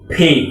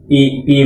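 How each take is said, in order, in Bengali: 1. "p" উচ্চারণে বাতাসের জোরালো ফোঁস বের হয়। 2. "p" উচ্চারণে বাতাসের কোনো ফোঁস থাকে না। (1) "হবে কি ফি" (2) "আমি তো অনেক শুনেছি পি পি বলে কিন্তু হবে না"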